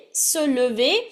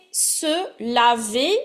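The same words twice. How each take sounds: First: "lever" said carefully with rounded "uh" first; showing the difference. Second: "laver" said carefully with open "ah" first; showing the difference. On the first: Teacher checking students hear it, rounded "uh" in "lever". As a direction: clear schwa "le" at the start of "lever". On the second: Teacher checking students hear it, open "ah" in "laver". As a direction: clear wide "la" at the start of "laver". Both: Shown as a demonstration. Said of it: "See the difference".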